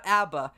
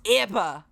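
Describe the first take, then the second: First: Said in the usual way. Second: "abba" with a raised first vowel, like "ebba"; Australian pronunciation. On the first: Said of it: "It's abba". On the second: Shown as a demonstration. Guest corrects the band's name, "abba" said Australian-style as "ebba". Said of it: "say the name of with an Australian accent".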